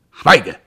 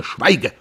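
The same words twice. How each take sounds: First: Much louder, higher shouted command; furious brother shouting silence. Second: Sharp, higher command; angry command. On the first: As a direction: bellow it to silence him. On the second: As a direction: cut him off hard. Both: Acted. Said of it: "Pierre war wütend geworden".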